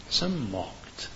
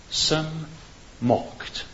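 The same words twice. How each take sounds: First: Some mocked said softly, falling; soft repeat. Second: Some, pause, then mocked, drawn apart; stressed with pauses. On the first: Preacher repeating the words quietly for effect. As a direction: drop the voice on the repeat. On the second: Preacher pausing between some and mocked. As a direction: space out some ... mocked for weight. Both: Shown as a demonstration.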